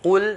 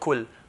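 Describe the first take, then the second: First: It starts with a heavy, deep qaf sound. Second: It starts with a light kaf sound. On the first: The speaker calls it right. "So qul" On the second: The speaker calls it wrong. "not kul"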